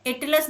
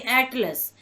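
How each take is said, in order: First: एटलस starting on a closed "ay", like "ate-las"; spelling pronunciation. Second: एटलस starting on an open "ae", as in "cat"; English pronunciation. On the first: Teacher showing what not to say, closed "ay" opening on एटलस. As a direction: begin एटलस with letter-name A. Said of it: "नहीं". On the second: Teacher correcting the word, open "ae" opening on एटलस. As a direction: open the first vowel of एटलस to "at". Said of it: "उसका उच्चारण ऐसे करते हैं". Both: Shown as a demonstration.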